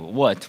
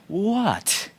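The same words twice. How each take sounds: First: It is said in an American accent. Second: It is said in a British accent.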